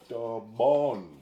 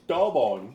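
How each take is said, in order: First: The stress is on the second syllable. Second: The stress is on the first syllable. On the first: The speaker calls it right. "the emphasis on the second O" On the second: The speaker calls it wrong. "Not Tobon"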